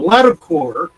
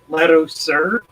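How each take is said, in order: First: The name ends with a 'core' sound. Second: The name ends with a 'sir' sound. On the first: The speaker calls it wrong. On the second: The speaker calls it right.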